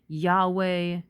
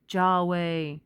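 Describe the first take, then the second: First: The name begins with a Y sound. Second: The name begins with a J sound. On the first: "the Yod can be pronounced as a Yah" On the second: "or as a Jah"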